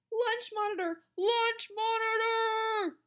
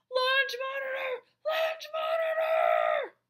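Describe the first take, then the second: First: High, loud call, second one stretched; crying out a warning. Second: Very high, straining alarm shout; crying even more loudly. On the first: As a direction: raise the alarm, stretching the repeat. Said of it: "he cried". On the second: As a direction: shriek the warning, drawing out the repeat. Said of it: "He cried even more loudly". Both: A narrator's reading.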